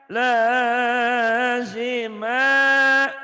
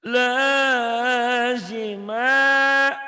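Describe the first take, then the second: No difference in how they are said.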